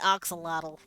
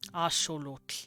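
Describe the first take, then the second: First: The word is said the usual English way. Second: The word ends in a Welsh-like 'tl' sound. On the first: This is how English speakers say it. "But we say Oxalotl" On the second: This is how native speakers say it. "That's how they'd pronounce it"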